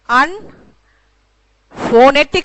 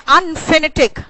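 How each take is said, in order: First: The second syllable has a full 'o' vowel. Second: The second syllable has a short, reduced vowel. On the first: "अनफोनेटिक नहीं कहा" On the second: "मैंने कहा अनफिनेटिक"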